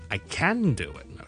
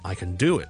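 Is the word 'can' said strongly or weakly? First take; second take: strongly; weakly. First: The word can is stressed with a full vowel. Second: The word can is weak, quiet and reduced. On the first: The speaker really is able to do it. "我想強調，我真係可以做到" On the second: The ability is not the point of the sentence. "個can 咧就係好弱好弱好弱嘅"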